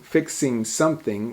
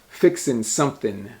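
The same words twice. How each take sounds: First: The words end with a full -ing sound. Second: The words end with an n sound, no g. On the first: "Instead of saying something" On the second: "we say fixing something, we drop the G"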